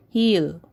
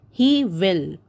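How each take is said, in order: First: "heal" as he will run together; contracted form. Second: Said in the usual way. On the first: Shown as a demonstration. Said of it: "the short form of he will is". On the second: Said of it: "So the short form of he will".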